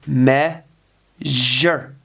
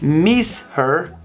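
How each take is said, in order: First: The middle flows with a smooth zh sound. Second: The word breaks apart in the middle. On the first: The speaker calls it right. "Listen to my pronunciation" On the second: The speaker calls it wrong. "a break in the middle of the word, which makes it sound more like mis her than the zh sound"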